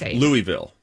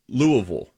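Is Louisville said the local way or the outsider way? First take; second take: outsider; local. First: It uses a non-local pronunciation of the city name. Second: It uses the local pronunciation of the city name. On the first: The speaker calls it wrong. "Instead of Louisville" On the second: The speaker calls it right. "I said Louisville"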